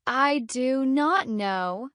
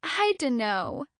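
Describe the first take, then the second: First: Slow, word by word; every word fully separate and drawn out; stiffly careful, one full word at a time; too slow. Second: I DUNNO run together as one chunk; natural "dunno", middle sounds swallowed; natural reduced chunk. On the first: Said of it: "Too slow". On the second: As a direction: slur "do not know" into a casual "dunno". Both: Shown as a demonstration.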